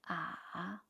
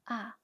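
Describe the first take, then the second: First: The pitch dips low and then rises. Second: The pitch falls sharply from high to low.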